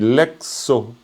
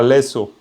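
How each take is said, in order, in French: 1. Un son k vient avant le s. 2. Il n'y a pas de son k avant le s. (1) "tu dis lexo" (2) "Tu dis pas lesso"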